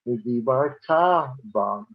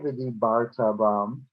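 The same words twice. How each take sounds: First: The stress falls on the final syllable 'ta'. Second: The stress falls on the syllable 'bar'. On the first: It is a future verb. The speaker calls it right. "the trope that's on that word tells us to say" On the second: It sounds like a past-tense verb. The speaker calls it wrong. "we don't say"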